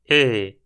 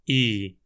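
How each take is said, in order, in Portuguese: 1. A vogal é mais aberta, com a raiz da língua puxada para trás. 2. A vogal é um 'ee' fechado e simples.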